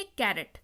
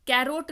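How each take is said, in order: First: "कैरेट" lower and falling, short E before the T; correct pronunciation. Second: "कैरोट" with a long O before the T; wrong pronunciation. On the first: Teacher answering own question to learners, "कैरेट" pronounced with a short E. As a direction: answer with "कैरेट", last syllable a short "ret". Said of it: "इसको क्या पढ़ेंगे?". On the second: Teacher ruling out a mistake for the class, "कैरोट" mispronounced with a long O. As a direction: voice the misreading "कैरोट", second syllable like "rote". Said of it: "कैरोट नहीं पढ़ेंगे". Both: Shown as a demonstration.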